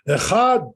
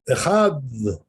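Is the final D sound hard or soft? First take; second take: hard; soft. First: The final D is hard and forceful. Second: The final D is soft, almost like th. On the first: The speaker calls it wrong. "They say it so hard, the Dalid" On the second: The speaker calls it right. "it's a soft dalid, it's a soft D sound"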